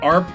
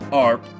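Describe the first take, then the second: First: The word is said quickly. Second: The word is said slowly. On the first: It sounds like someone roleplaying an animal. "either you sound like some furries I know really trying to roleplay" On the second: It sounds like a British person saying harp. "if you say it a little slower"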